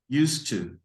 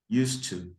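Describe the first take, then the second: First: The two words are blended into one reduced form. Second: The same.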